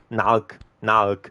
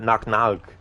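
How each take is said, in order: First: The two words are slow with a gap between. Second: The two words are quick and run together. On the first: The speaker calls it wrong. "Not knock, knock" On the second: The speaker calls it right. "say it quick, together"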